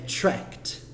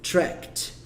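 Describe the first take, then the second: First: The ending is just a t sound. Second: The same.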